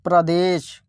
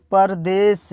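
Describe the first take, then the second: First: प्रदेश with प and र joined, pradesh; pra-desh cluster. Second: परदेश with a full vowel after प, par-desh. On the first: Teacher giving the other spelling's reading, pradesh. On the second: Teacher reading the word one way before the other, par-desh. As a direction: say परदेश as two clear parts, पर देश. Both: Shown as a demonstration. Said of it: "या आप लोग इसे ऐसे लिखते हैं प्रदेश".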